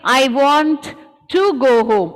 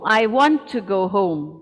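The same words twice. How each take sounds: First: The t sound is pronounced twice. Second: The t sound is pronounced only once. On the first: The speaker calls it wrong. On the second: The speaker calls it right.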